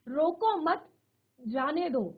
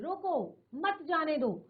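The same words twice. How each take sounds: First: A short pause comes after the second word. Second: A short pause comes after the first word. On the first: Do not stop him, let him go. "हमने दूसरे शब्द के साथ किया" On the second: Stop him, do not let him go. "रोको बोलकर हम थोड़ी एक सेकंड के लिए रुक गए"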